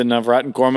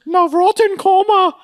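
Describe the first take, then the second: First: Said in the usual way. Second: Very high, exaggerated echo of the order; hammed-up waiter, pitch way up; waiter impression. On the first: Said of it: "And then I say". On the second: Waiter repeating the diner's order, hammed-up high voice. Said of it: "And he goes".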